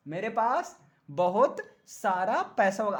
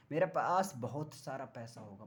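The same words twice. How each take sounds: First: Full-voiced, measured declaration to the class; emphatic boast. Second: Much lower and softer, almost an aside; low-key boast. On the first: Same boast repeated for the class. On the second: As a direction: confide it quietly, pitch dropped. Joking boast, then repeated aloud. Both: Shown as a demonstration.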